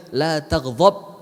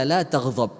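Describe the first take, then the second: First: A patient, drawn-out warning; slow emphatic advice. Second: Said in the usual way. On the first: Retold or imitated. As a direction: stretch out La taghdab slowly, every syllable weighted. Prophet repeats the advice a third time. (nasihat pelan dan tegas)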